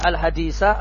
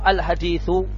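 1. Kata ini berakhir dengan vokal 'a'. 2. Kata ini berakhir dengan vokal 'u'. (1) "Boleh dibaca Al-Hadisa, artinya Akmilil Hadisa. Boleh dibaca Mansub" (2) "Boleh pula dibaca marfu al-hadithu"

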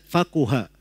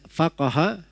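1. Vokal setelah q adalah u. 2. Vokal setelah q adalah a. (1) "bisa dibaca faquha" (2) "bisa dibaca faqaha"

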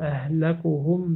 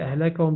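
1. الحركة بعد الكاف هي 'u'. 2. الحركة بعد الكاف هي 'a'. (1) "بالرفع" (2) "بالنصب"

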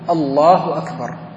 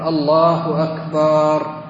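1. الكلمتان تُنطقان قصيرتين مقطوعتين، من غير تمطيط. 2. الكلمة الأخيرة تُمَدّ بمدٍّ طويل. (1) "هذا هو التكبير، دون أن يزيد في حروفه أو في مدوده" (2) "أو يمطط في التكبير فيقول الله أكبر"

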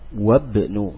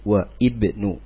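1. Kedua kata itu menyambung tanpa bunyi 'i' di antaranya. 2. Bunyi 'i' dibaca setelah 'wa'.

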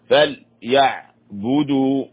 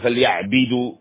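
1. يتبع صوت الباء حركة الضمة. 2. يتبع صوت الباء حركة الكسرة. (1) "الباء مضمومة، فليعبدوا هكذا" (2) "لا نكسرها، لا نقول فليعبدوا بدوا هذا خطأ"

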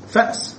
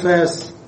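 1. الهمزة تغلق المقطع الأول. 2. الألف الممدودة تحل محل الهمزة.

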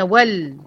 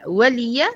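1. اللام تُنطق ساكنة بلا حركة. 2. اللام تتبعها كسرة قصيرة. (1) "لكن هي ول، ول لام أمر" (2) "ولي بقت هنا لام تعليل"

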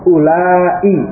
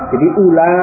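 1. Kata itu berakhir dengan hamzah dan i. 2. Kata itu berakhir pada vokal, tanpa hamzah. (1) "Kalau yang mat tadi, ... ada hamzah di kasrah di akhir" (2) "Ula ini dibaca dengan pendek... hanya itu, tanpa ada hamzah kasrah"

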